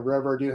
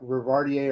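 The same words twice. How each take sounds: First: "Rivardieu", ending as in "-dieu"; alternative name pronunciation. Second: "Rivardier", ending as in "-dier"; tentative name pronunciation. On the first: Co-host unsure of a pilot instructor's surname, "Rivardieu" with a "-dieu" ending. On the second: Co-host guessing at a pilot instructor's surname, "Rivardier" with a "-dier" ending. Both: Shown as a demonstration. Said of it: "not sure how you pronounce his name".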